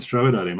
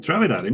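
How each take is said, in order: First: Said in the usual way. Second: Higher-pitched, disbelieving question; incredulous echo. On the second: Retold or imitated. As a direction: echo the order back in mock disbelief.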